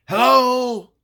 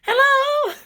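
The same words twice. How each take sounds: First: Calling out loud into the house. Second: Put-on high, loud childish call with a laugh; kid's voice. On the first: Retold or imitated. Bobby calls loudly into the empty house. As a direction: call out into the dark doorway. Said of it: "in a loud voice". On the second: Imitating Bobby calling like a kid into the house. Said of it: "He sounded like a kid".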